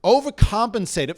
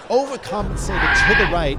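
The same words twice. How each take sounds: First: Said in the usual way. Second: "overcompensated to the right" louder, swelling on "to the right"; emphatic retelling. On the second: Retold or imitated. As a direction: lean hard and loud into "to the right". Repeats the word, louder, for effect.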